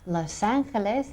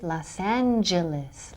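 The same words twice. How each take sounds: First: The name is pronounced with Spanish sounds. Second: The name is pronounced with English sounds.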